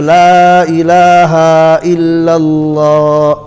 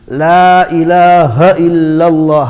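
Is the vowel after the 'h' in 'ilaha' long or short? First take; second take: long; short. First: The vowel after the h is stretched long. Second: The vowel after the h is kept short. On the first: The speaker calls it wrong. "the people stretch the ha ... You're trying to stretch it ... It is incorrect" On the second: The speaker calls it right. "Ha zabar ha. Very important"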